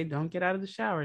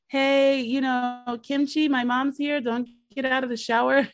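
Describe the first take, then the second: First: Said in the usual way. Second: Higher, louder panicked call through the door; hammed-up yell to warn his girlfriend; mock yelling. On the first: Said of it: "But okay". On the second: Son yells to Kimchi that mom is here, mock yell.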